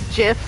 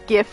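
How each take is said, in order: First: The word begins with a J sound. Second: The word begins with a hard G sound. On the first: The speaker calls it wrong. "like Jif" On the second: The speaker calls it right. "it's gift without the T"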